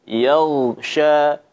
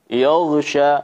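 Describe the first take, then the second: First: The first vowel is light and clear, like 'ya'. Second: The first vowel is heavy and dark, near 'yo'. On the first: The speaker calls it right. "Yang benar adalah ya" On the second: The speaker calls it wrong. "Jangan sampai juga ditebalkan. ... yo"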